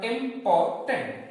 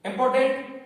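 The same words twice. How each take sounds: First: important slowly in three beats, इं-पॉर-टेंट; important sounded out part by part; split into syllables. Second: Said in the usual way. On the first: Shown as a demonstration. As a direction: count out the three syllables of important by pausing between them. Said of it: "three syllables word". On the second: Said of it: "three syllables word बन गया".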